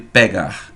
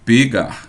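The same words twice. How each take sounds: First: The e in the first syllable is open. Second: The e in the first syllable is closed. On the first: This is how people from the speaker's region say it. "no lugar de pegar" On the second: This is how people from another region say it. "Fale isso com um som fechado"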